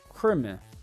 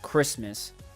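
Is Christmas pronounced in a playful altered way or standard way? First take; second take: playful altered; standard. First: Christmas is pronounced in a playful, altered way. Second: Christmas is pronounced in the ordinary standard way.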